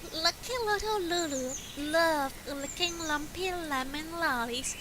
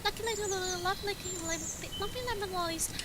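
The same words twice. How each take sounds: First: It is read at an ordinary speed. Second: It is read very quickly.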